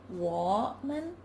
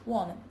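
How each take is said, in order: First: "woman" with "wo" dipping and rising; "wo" keeps its final rise; full third tone. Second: "woman." with "wo" low and falling only; "wo" loses its rise; mid-phrase low fall on "woman."; low falling third. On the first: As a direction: citation tone on "woman". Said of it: "For example". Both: Shown as a demonstration.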